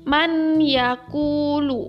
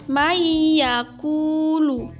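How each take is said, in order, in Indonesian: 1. Bunyi n dibaca dengan jelas sebelum y. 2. Bunyi n melebur menjadi y yang dobel. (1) "Sebelum diterapkannya hukum idgham, maka ayat tersebut dibacanya seperti ini" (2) "Maka dibacanya adalah maiyakulu"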